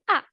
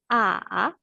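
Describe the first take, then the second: First: The pitch falls sharply from high. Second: The pitch falls low, then rises. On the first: "Comme l'accent grave" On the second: "Descendant et montant"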